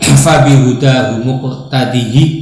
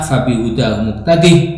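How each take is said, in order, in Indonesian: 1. Huruf h terakhir dibaca dengan vokal i pendek. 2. Huruf h terakhir tidak dibunyikan, tanpa vokal setelahnya. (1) "dikasroh tanpa silah" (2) "Haknya di situ"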